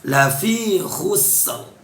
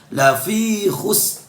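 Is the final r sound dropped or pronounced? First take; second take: pronounced; dropped. First: The final r sound is clearly pronounced. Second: The final r sound is dropped. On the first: The speaker calls it right. "Ra-nya pun juga dibaca jelas atau dibaca idhar" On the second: The speaker calls it wrong. "tidak boleh dibaca lafi khus"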